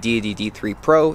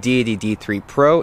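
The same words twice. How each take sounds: First: Much of the low bass is trimmed away. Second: The full low bass of the voice remains. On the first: "this is with the 150Hz low pass filter turned on" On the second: "there is no low pass filter turned on"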